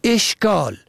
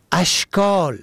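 First: اشکال said "eshkal"; کسره on first letter. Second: اشکال said "ashkal"; فتحه on first letter. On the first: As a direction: start اشکال with a short e. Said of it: "به کسر اول". (اشکال با کسرهٔ الف: اِشکال) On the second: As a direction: start اشکال with a short a. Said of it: "به فتح اول". (اشکال با فتحهٔ الف: اَشکال) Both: Shown as a demonstration.

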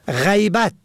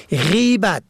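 First: غیبت said as ghaybat, a first; fatha on first letter. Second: غیبت said as gheybat, e first; kasra on first letter. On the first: Teacher contrasting homographs, ghaybat with fatha. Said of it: "به فتح اول". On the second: Teacher contrasting homographs, gheybat with kasra. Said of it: "به کسر اول". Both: Shown as a demonstration.

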